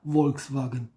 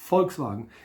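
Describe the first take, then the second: First: The word is said slowly without punch. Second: The word is said crisply with energy. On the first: It sounds like the car must be pushed. The speaker calls it wrong. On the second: It keeps the strength of the word people. The speaker calls it right.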